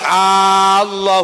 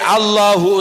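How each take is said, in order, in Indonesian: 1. Vokal pertama dibaca panjang. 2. Vokal pertama dibaca pendek. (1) "kalau A-nya panjang" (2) "hamzahnya kita baca pendek"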